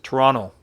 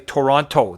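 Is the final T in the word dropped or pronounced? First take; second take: dropped; pronounced. First: The last T is dropped, ending like an N. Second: Every T, including the last, is clearly pronounced. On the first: This is how locals say it. "you don't pronounce that last T. It's an N" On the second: This is how people from elsewhere say it. "They pronounce every T"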